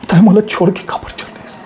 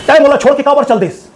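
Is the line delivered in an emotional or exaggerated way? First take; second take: emotional; exaggerated. First: It is said with deep, sincere, heartfelt emotion. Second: It is said loudly with exaggerated, overdone acting. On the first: The speaker calls it right. "दूसरा वाला भावनाओं emotion के साथ में दिल के गहरी सच्चाई से" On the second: The speaker calls it wrong. "पहला वाला जोर से बोलेगे ओवर एक्टिंग"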